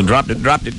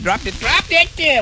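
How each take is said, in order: First: Said in the usual way. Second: Squeaky put-on voice repeating it; a cartoon character fussing, pitched way up; high silly voice. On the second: DJ's cartoon voice fussing over a dropped thing, high and squeaky.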